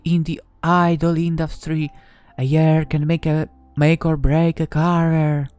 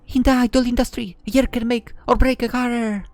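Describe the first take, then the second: First: It is said in another character's voice. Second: It is said in Kyoko's character voice.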